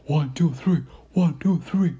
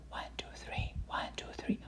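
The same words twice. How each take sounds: First: The count said aloud, clear and louder. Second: Soft whispered counting. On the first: Lecturer showing the whisper heard loud and clear. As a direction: voice the count as heard through the stethoscope. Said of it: "you hear it very loud and clear". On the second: Lecturer showing the patient whispering the count. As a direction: breathe the count with no voice. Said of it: "Ask the patient to whisper". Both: Shown as a demonstration.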